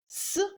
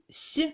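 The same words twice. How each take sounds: First: The consonant is hard, not palatalized. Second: The consonant is soft, palatalized.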